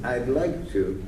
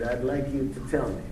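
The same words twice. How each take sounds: First: "I'd like to" trailing off; ending on a wish. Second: "tell" clearly marked, closed with a fall; "I'd like you to tell me" 요청으로 끝맺기; ending on a request. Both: Shown as a demonstration. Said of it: "notice the difference between".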